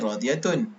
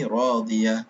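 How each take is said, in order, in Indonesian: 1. Kata ini berakhir dengan akhiran -tun yang penuh. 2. Kata ini berakhir dengan bunyi h yang pendek. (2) "dibaca berhenti"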